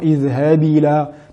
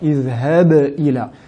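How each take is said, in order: First: The b is closed flat without any echoing bounce. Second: The b is released with a clear echoing bounce. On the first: The speaker calls it wrong. "Et non" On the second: The speaker calls it right. "mettre en valeur la qalqala de la lettre ba"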